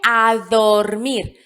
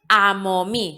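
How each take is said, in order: First: The phrase is said fully with every sound. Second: The phrase is mangled, with sounds dropped. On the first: This is the correct adult form. The speaker calls it right. "se dice a dormir" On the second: This is how a small child says it. The speaker calls it wrong. "no se dice amo mí"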